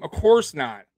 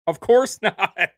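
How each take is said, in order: First: Said in the usual way. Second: Slow, louder, with a laugh between "course" and "not"; laughing, drawn out. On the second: Real, not acted.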